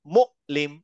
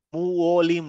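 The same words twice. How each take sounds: First: মুঅলিম as 'mu'-lim' with a glottal catch; hamza stop. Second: মুঅলিম run together as 'mu-wo-lim'; gliding, no hamza. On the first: Teacher corrects the word, মুঅলিম with a glottal stop. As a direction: cut the breath sharply after মু, then লিম. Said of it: "যেহেতু হামজা আছে". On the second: Teacher shows the mistake, মুঅলিম as gliding 'mu-wo-lim'. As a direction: slide through মুঅলিম with a w, no catch. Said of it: "মুঅলিম না". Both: Shown as a demonstration.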